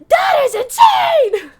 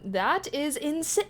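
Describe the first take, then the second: First: It is said with strong, expressive feeling. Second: It is said flatly, without much feeling. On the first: The speaker calls it right. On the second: The speaker calls it wrong.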